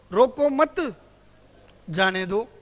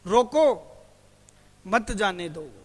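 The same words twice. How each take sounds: First: "रोको मत" as one loud unit, then "जाने दो"; pause after मत. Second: Loud "रोको", stop, then "मत जाने दो"; punched "रोको", then a calmer "मत जाने दो"; pause after रोको. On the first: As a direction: run "रोको" into "मत", stop, then release "जाने दो". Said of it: "और दोबारा बोलता हूं इसी को". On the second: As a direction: break right after "रोको", keeping "मत" with "जाने दो". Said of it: "जैसे". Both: Shown as a demonstration.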